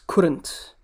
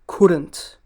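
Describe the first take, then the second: First: It is said as one shortened word. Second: The same.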